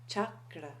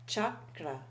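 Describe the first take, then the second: No difference in how they are said.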